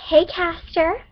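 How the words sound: It is said in a put-on character voice.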